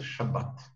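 The word ends with a t sound. This is the Israeli pronunciation. "В Израиле это называется «шаббат»"

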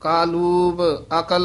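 The break falls after kaaloob, before akal. The speaker calls it right. "ਕਾਲੂਬ ਇਕੱਠਾ ਹੀ ਹੈ"

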